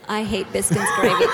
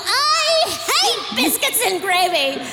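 First: It is said plainly and calmly. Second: It is said forcefully and with disgust.

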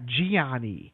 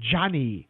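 First: The name does not sound like 'Johnny'. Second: The name sounds like English 'Johnny'. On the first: The speaker calls it wrong. "It's not Gianni" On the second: The speaker calls it right. "It's pronounced Johnny, like J-O-H-N-N-Y"

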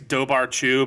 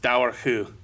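First: Every written consonant is pronounced as spelled. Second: The middle consonants are softened, Irish style. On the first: This is how the written name appears to read. The speaker calls it wrong. "It looks like it's Dobarchu" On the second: This is the actual pronunciation of the name. The speaker calls it right. "but it's Daorhu"

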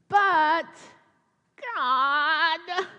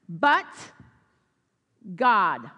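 First: It is said in a whining tone. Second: It is said in a powerful tone.

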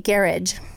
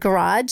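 First: The word is said in a British way. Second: The word is said in a non-British way. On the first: "my friends who have been from Britain ... they say garage" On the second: "I say the word garage"

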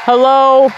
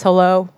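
First: It is said in her normal voice. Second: It is said in a put-on deep man voice.

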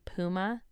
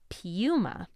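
First: The brand name is pronounced the American way. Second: The brand name is pronounced the non-American way. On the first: "Here in the States, we say Puma" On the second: "in other countries, they say Puma"

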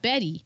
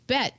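First: The name is said as two syllables. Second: The name is said as one syllable. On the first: The speaker calls it wrong. "not Betty" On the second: The speaker calls it right. "it's Bette"

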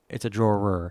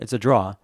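First: The word ends with a clear R sound. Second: The word ends without an R sound. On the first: The speaker calls it right. "I just have to make sure I pronounce the ER" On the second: The speaker calls it wrong. "when I'm not paying attention to my accent, it's a draw"

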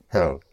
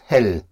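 First: The word is said with English pronunciation. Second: The word is said with German pronunciation. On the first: The speaker calls it wrong. "not hell" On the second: The speaker calls it right. "But pronounced hell"

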